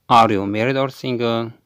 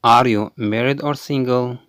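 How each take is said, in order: Both takes have the same delivery.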